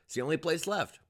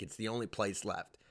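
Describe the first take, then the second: First: Higher, firmer insistence; emphatic, higher-pitched claim; insistent repeat. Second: Softer, falling resignation; quiet, resigned admission; resigned aside. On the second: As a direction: drop the volume and concede it. Resigned first take. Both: Real, not acted.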